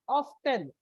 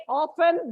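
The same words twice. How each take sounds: First: Often as "OFF-ten", T sounded; American-style "off-ten" for often. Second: Often as "OFF-en", no T sound; British-style "off-en" for often. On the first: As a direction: say often with a clear T. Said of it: "While American English, they pronounce it". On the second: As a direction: say often with the T silent. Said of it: "by the British English". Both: Shown as a demonstration.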